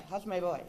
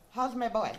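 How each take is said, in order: First: Imitating her greeting, echoed. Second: Louder, fond call of her greeting; imitating her greeting. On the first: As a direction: echo the greeting, settling down. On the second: Friend imitating how she greeted her son, loud. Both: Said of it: "That's how she say my".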